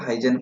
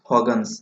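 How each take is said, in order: First: The name is said as 'Haijen'. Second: The name is said as 'Hugens'. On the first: This is how people here usually say it. The speaker calls it wrong. "ଆମେ ସବୁ ହାଇଜେନ ପଢୁଛୁ" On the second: This is how the name is actually read. The speaker calls it right. "ଏଇଟା କେମିତି ପଢାଯାଏ"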